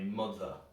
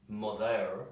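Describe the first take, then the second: First: The final vowel is reduced to a schwa. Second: The final vowel is fully pronounced. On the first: The speaker calls it right. "We say mother. The uh, uh is the schwa sound" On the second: The speaker calls it wrong. "We don't say mother, that sounds awful"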